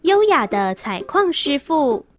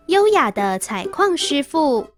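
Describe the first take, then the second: No difference in how they are said.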